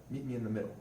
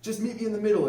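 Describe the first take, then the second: First: Said in the usual way. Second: A high, loud mock thick German accent. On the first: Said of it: "the British troops had yelled back out". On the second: German soldier calling to the British in a thick German accent. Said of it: "in a very thick German accent".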